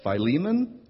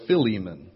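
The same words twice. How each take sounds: First: Philemon said as FY-lee-mon, rising; Philemon said FY-lee-mon as option one; first pronunciation. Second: Philemon said as fi-LEE-mon, falling; Philemon said fi-LEE-mon as option two; second pronunciation. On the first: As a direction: give Philemon with a long "fy" opening. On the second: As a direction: give Philemon with a short "fi" opening. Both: Shown as a demonstration. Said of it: "acceptable pronunciations of the book are".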